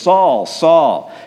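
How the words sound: The voice sounds stern and accusing. The speaker is scolding from a position of power. The speaker calls it wrong. "I don't picture Jesus like this"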